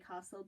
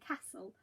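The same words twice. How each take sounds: First: It is said in a Newmarket accent. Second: It is said in a Leeds accent.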